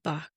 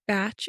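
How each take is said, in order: First: The name ends with a 'k' sound. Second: The name ends with a 'ch' sound. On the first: The speaker calls it right. "instead of" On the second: The speaker calls it wrong. "accidentally pronounced it as"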